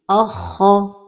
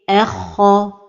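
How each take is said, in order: First: The opening hamza is made heavy too. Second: Only the kha is heavy; the hamza stays light. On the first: The speaker calls it wrong. "Une autre erreur est d'emphatiser al-hamza comme ceci" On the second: The speaker calls it right. "Donc la prononciation correcte est erkha"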